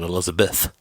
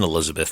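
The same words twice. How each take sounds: First: The word is said with a gap-toothed lisp. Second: The word is said in a plain voice.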